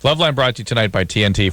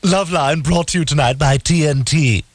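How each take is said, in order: First: It is read in his normal voice. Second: It is read in a Stewie impression.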